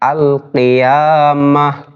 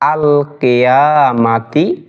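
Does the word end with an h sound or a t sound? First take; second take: h sound; t sound. First: The word ends with an h sound. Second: The word ends with a t sound and vowel.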